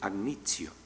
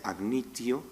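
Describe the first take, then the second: First: The t is weakened into a fricative sound. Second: The t is a full stop-like consonant. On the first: This is the final stage of the change. "esa T empieza a ser cada vez más débil, más fricativa, y acaba pronunciándose agnitio" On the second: This is the earlier stage of the change. "empieza a pronunciarse agnitio"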